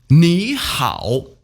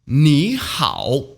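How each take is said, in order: The two takes are said the same way.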